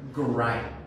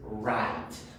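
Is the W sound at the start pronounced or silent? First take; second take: pronounced; silent. First: A W sound is pronounced at the start. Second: The W at the start is silent. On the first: The speaker calls it wrong. "Mucha gente dice write" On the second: The speaker calls it right. "The pronunciation is write"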